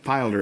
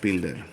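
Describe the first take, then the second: First: The name has the original show's pronunciation. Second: The name has a Spanish pronunciation. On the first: This is how the show's makers say it. "is how they pronounced it" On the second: This is how Spanish speakers said it. "in Spanish we called it"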